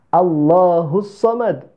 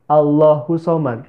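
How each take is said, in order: First: The s sound is doubled, with a bounced end. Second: The s sound is single, with a flat end. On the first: The speaker calls it right. "seharusnya dibaca seperti itu" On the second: The speaker calls it wrong. "Tidak ada tasdidnya di huruf so-nya"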